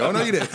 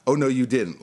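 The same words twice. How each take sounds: First: High, laughing mock sassy girl; sassy offended girl. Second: Said in the usual way. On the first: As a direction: play the girl whose weave just got torn, half laughing. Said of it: "I was like the girl who, like, you just tore my weave". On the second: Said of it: "Like, I was like the girl who".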